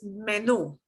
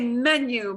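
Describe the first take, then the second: First: The stress is on the final syllable. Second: The stress is not on the final syllable. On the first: This is how Spanish speakers say it. The speaker calls it right. "but it's menu. We punch the O at the end" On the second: This is how English speakers say it. The speaker calls it wrong. "We say menu"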